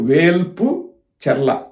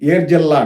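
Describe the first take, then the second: First: The name is said in its full form. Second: The name is said in a short, contracted form. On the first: This is the village's official name. "దాని పేరు వేల్పు చెర్ల" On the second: This is how local people say the name. "ఏర్జల్లా అంటారు"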